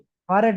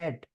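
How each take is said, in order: First: The word is said with two syllables. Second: The word is said with one syllable. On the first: The speaker calls it wrong. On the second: The speaker calls it right.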